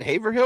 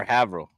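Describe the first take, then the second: First: Haverhill in three syllables, HAY-ver-hill. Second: Haverhill squashed to HAV-rul; local-style Haverhill, HAV-uh-rul. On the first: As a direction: say Haverhill with a long A and a full "hill". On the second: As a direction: say Haverhill with a short A and swallowed ending. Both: Shown as a demonstration. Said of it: "is it Haverhill or Haverhill".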